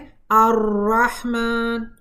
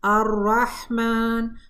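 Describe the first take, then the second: First: The r is trilled many times, forcefully. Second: The r is trilled once, lightly. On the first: The speaker calls it wrong. "ये बहुत ज़्यादा तिकरार हो जाती है" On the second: The speaker calls it right. "अगर मखरज को नरमी से हम इस्तेमाल करेंगे तो तिकरार भी एक ही बार होगी"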